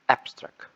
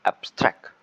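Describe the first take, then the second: First: "abstract" said as a noun, weight on AB; stress on first syllable. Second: "abstract" said as a verb, loud STRACT; stress on second syllable. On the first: Presenter showing the difference as a noun, stress on first syllable. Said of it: "As a noun". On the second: Presenter showing the difference as a verb, stress on second syllable. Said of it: "As a verb". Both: Shown as a demonstration.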